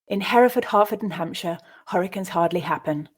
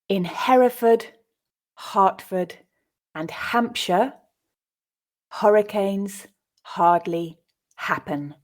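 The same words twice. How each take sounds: First: It is read quickly at a natural speed. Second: It is read slowly with pauses between words. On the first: "at a more natural pace" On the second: "I'll read it first time slowly"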